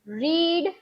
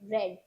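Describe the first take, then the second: First: The vowel is a long 'ee' sound. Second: The vowel is a short 'eh' sound. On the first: It is the present form of the verb. "रीड सिर्फ वी one में बोलना है" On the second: It is the past or past participle form. "वी टू और वी three दोनों में ही हम उसे pronounce करेंगे रेड।"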